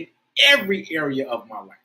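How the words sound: It is said with strong, warm feeling. The words are felt and meant. "you've got to try to feel it"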